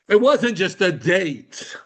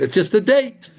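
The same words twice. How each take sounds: First: Slow, stress on "wasn't", falling firmly; emphatic correction. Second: High, rising "It's just a date" as if it's nothing; mock dismissive. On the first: Shown as a demonstration. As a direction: lean hard on "wasn't". Corrects the dismissal. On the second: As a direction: toss it off like a trifle. Mock dismissal, then corrected.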